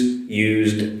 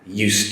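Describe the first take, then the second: First: The middle consonant is a buzzing Z sound. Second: The middle consonant is a hissing S sound. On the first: It is the past form of the verb to use. "Whereas the use, uh, the S is a Z sound" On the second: It expresses a past habit or being familiar with something. "the S is a S sound"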